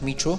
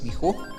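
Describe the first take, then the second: First: The ch is a soft English-style sound. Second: The ch is a hard, throaty sound. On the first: The speaker calls it wrong. "It's just not Michu" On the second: The speaker calls it right. "we have those hard uh, sounds. H, ch"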